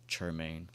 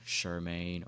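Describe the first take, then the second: First: The name begins with a 'ch' sound. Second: The name begins with an 'sh' sound. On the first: The speaker calls it right. "It's Chermain, like church" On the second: The speaker calls it wrong. "people mess up my name all the time. They be saying like Shermaine"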